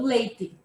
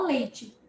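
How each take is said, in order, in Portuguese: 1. É falado com um sotaque sulista. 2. É falado com um sotaque nortista ou carioca. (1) "os sulistas, como eu, pronunciam a palavra leite, muitas vezes falando leite" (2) "o nortista ou o carioca, ele vai falar leite"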